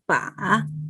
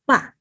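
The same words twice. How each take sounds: First: The pitch dips down and then rises. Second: The pitch falls sharply from high to low. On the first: "Third tone is fall down and rising" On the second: "Fourth tone go down, falling"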